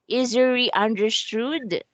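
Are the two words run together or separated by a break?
run together. The two words run together without a break. The speaker calls it wrong. "their L sounds like R... if it's continuous"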